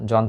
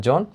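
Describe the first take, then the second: First: জন with an open aw vowel, "jawn"; open vowel, as spelt. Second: জন with a rounded o, "jon"; closed o vowel. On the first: Teacher cites the written word, জন with open aw. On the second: Teacher gives students the spoken form, জন as "jon". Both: Shown as a demonstration. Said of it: "ন যেগুলো সবগুলো হচ্ছে ওকার হবে".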